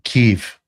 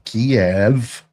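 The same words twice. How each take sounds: First: Kiev is said the local, non-British way. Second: Kiev is said the traditional British way. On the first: This is how it is actually pronounced. The speaker calls it right. "It's actually" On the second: This is how British people have always said it. The speaker calls it wrong. "We have always pronounced it"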